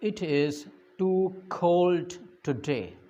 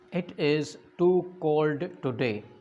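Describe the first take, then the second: First: The k in cold has a strong puff. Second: The k in cold is plain, without breath. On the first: The speaker calls it right. "बल्कि" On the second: The speaker calls it wrong. "इस तरह नहीं"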